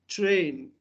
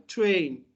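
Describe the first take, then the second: No difference in how they are said.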